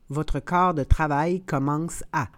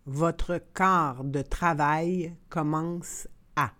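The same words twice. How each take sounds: First: The phrase is said at natural conversational speed. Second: The phrase is said slowly and carefully. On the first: "and then in communicational Canadian French" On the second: "then slowly said in French"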